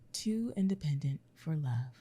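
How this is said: It is said as a statement, falling.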